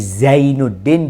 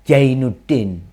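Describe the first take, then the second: First: The name begins with a z sound. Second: The name begins with a j sound. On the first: The speaker calls it right. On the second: The speaker calls it wrong.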